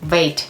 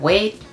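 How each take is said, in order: First: The word begins with a buzzing V sound. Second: The word begins with a rounded W sound. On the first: The speaker calls it wrong. "wait instead of" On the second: The speaker calls it right. "instead of wait"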